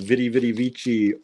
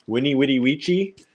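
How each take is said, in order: First: The words begin with a V sound. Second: The words begin with a W sound. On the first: The speaker calls it wrong. "I was pronouncing Vidi Vidi Vici all wrong" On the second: The speaker calls it right. "With a W sound"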